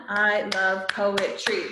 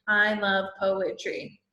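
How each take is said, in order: First: Slow, each syllable spaced; slow syllable count. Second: Said in the usual way. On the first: Shown as a demonstration. Teacher to class, counting syllables slowly.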